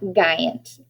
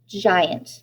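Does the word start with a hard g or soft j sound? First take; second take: hard g; soft j. First: The word starts with a hard g sound. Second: The word starts with a soft j sound. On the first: The speaker calls it wrong. "not a g, hard G" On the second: The speaker calls it right. "we're using a j, soft G"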